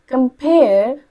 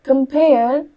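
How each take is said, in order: The two takes are said the same way.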